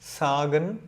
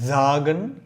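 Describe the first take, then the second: First: It starts with a sharp s sound. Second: It starts with a smooth z sound. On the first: The speaker calls it wrong. "அப்படி சொல்லக்கூடாது" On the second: The speaker calls it right. "ஒரு இசட் மாதிரி ஸ்மூத்தாக"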